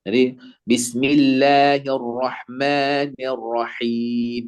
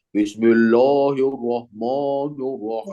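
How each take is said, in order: First: Slow, light bismillahirrahmanirrahim with open a; thin, open Arabic bismillahirrahmanirrahim; thin Arabic recitation. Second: Bismillahirrahmanirrahim said heavy with o for a; heavy, rounded bismillahirrahmanirrahim; thick Indonesian recitation. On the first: Shown as a demonstration. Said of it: "semuanya tipis-tipis". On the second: Retold or imitated. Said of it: "orang Indonesia itu tebel-tebel".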